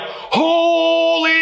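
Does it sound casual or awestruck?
awestruck. It is said with overwhelming awe.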